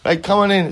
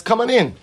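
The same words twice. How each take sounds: First: Said in the usual way. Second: A high call through a closed door; raised calling voice. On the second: Retold or imitated. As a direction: call it out loud so he hears. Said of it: "calls out".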